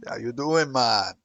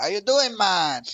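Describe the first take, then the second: First: Louder, laid-back mock Jamaican greeting; mock Jamaican accent. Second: Louder, higher mock Jamaican greeting; hammed-up Jamaican troll hello, loud; mock Jamaican accent. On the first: Showing a friend how trolls greet, mock Jamaican accent. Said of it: "They are fucking Jamaican". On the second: Retelling his reply to a troll, loud mock Jamaican accent. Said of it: "I was like".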